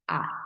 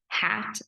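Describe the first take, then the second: First: The word starts without any h sound. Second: The word starts with an h sound. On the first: The speaker calls it wrong. "drop the H sound" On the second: The speaker calls it right. "instead of saying hat"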